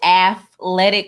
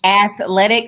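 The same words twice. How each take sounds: First: The middle consonant is an f sound. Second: The middle consonant is a th sound.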